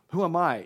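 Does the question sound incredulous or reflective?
incredulous. It sounds incredulous and protesting. The speaker objects to being chosen. "why is this happening to me?"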